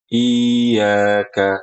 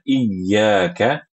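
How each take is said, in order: First: The first vowel is lengthened; the y is single. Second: The first vowel is short; the y is doubled. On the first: The speaker calls it wrong. "memanjangkan huruf sebelum huruf yang bertasydid" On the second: The speaker calls it right. "yang harusnya dibaca iyyaka"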